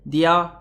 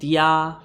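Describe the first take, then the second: First: The A vowel is said short. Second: The A vowel is drawn out long. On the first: "Did I pronounce it correctly?" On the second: "Is it a longer A?"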